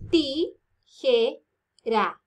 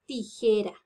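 First: "Tijera" very slowly as ti, je, ra; "Tijera" counted out in three separate syllables. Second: Said in the usual way. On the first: Shown as a demonstration. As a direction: pause after each syllable of "Tijera".

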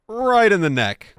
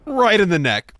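Both takes have the same delivery.

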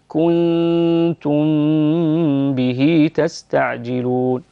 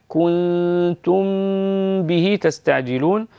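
First: كنتم به with م fully pronounced, no ghunna; wrong clear meem. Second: كنتم به with long nasal ghunna on م before ب; nasal ikhfa. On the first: Teacher showing the wrong clear م in كنتم به. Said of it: "لا نقول كنتم به تستعجلون كأنك أظهرتها". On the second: Teacher modeling ikhfa ghunna in كنتم به. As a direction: stretch the م of كنتم into ب with ghunna, very slowly. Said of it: "بين الميم والباء إخفاء نأتي بالغنة". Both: Shown as a demonstration.

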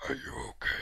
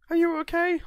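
First: Whispered, breathy repeat; mock whisper. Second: High, loud mock call to a soldier; mock concerned call. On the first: To the fallen soldier, a whispered mock check. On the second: Calling to his fallen soldier, loud high mock concern. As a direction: shout up to the fallen guy in mock worry.

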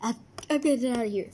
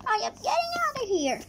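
First: Hurried. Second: Fast, high panicked flight. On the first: Fleeing the cat, fast. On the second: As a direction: blurt it out while running. Fleeing, fast. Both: Acted.

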